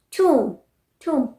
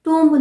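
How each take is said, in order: First: Tomb said as "toom"; silent B. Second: Tomb with the final B sounded; wrong pronunciation. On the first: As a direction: end tomb on M, falling. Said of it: "this is pronounced as". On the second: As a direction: close tomb on an audible "mb". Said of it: "tomb नहीं". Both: Shown as a demonstration.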